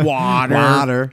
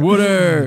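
First: Water is said in a standard accent. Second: Water is said in a Philadelphia accent. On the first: "Not water" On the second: "I'm from Philly. I say water also"

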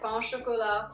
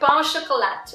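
First: It is said with a French accent. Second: It is said with an English accent. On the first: "I sounded really superficial with the French accent there" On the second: "Let's do that again"

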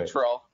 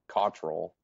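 First: The name is said in a plain, neutral way. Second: The name is said in an intimidating way. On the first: "How do you pronounce it?" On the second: "Unless I want to be like really intimidating"

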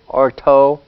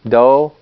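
First: The syllable begins with a voiceless T sound. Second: The syllable begins with a voiced D sound. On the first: "D and T" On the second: "D and T"

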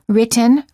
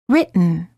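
First: The T sound is released before the N. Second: The T sound is held before the N. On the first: The speaker calls it wrong. "don't say" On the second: The speaker calls it right. "say written"

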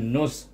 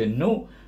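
First: The syllable ends in an s sound. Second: The syllable ends in a plain vowel. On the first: The speaker calls it right. "gabungkan nu itu dengan sod" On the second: The speaker calls it wrong. "kita tak boleh baca nu"

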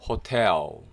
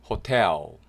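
The two takes are said the same way.

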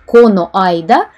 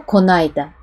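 First: Both vowels are kept, said as two words. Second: The vowels merge into one short word.

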